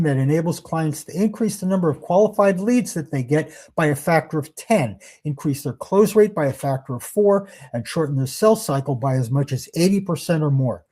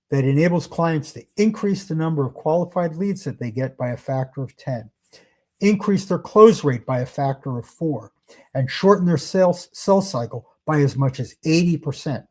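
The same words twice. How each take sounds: First: Said in the usual way. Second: Slightly slower, with pauses between benefits; deliberately slow. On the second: Shown as a demonstration. Sales trainer showing what prospects should hear, said slowly. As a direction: let each benefit land separately. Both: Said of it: "And I do want to say that slowly".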